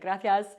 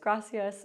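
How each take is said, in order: First: The c is lisped like English th. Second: The c is a plain s sound.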